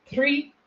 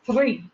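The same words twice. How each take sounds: First: "three" with the first sound close to t; Irish t-like sound. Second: "three" opened with a breathy puff of air; aspirated T. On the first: Showing the Irish difference, t-like first sound. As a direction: start "three" with the tongue stopped, Irish-style. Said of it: "there actually is a difference between". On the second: Showing how Irish speakers differ, aspirated first sound. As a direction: push air through the start of "three". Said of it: "they aspirate the T". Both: Shown as a demonstration.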